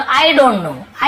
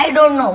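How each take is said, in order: First: Slow demo. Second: Said in the usual way. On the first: Shown as a demonstration. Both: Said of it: "तो आप क्या बोलो?".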